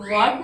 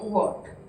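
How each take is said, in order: First: The vowel is an open, unrounded 'aa' sound. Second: The vowel is a rounded 'aw' sound. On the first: The speaker calls it wrong. "वाट नहीं" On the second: The speaker calls it right.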